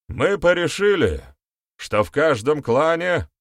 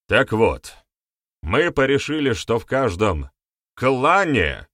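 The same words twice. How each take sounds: First: Said in the usual way. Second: Firm raised voice, КЛАНЕ set apart and punched; emphatic. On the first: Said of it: "начал ведун". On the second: A narrator's reading. Shaman insists on his wording after being corrected, emphatic. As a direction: press hard on the word КЛАНЕ. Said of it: "с нажимом произнёс он".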